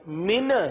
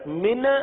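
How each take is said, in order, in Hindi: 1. आख़िरी n उछलते, गूँजते हुए छूटने के साथ ख़त्म होता है। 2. आख़िरी n उछलते, गूँजते हुए छूटने के साथ ख़त्म होता है।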